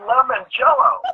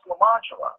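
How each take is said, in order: First: It is said as the English words lemon jello. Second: It is said as one French-sounding name. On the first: "That's lemon jello" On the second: "it's French. It's pronounced Lamangelo"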